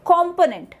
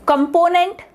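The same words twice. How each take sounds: First: "component" as KOM-ponent, full first O; correct pronunciation. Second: "Component" as kum-PO-nent, weak first vowel; wrong pronunciation. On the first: Teacher corrects students with it's component, correct pronunciation. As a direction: stress the first syllable of "component", falling at the end. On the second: Teacher shows students a form that is nothing, wrong pronunciation. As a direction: stress the middle of "Component", ending on a rise. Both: Shown as a demonstration. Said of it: "nothing, it's component".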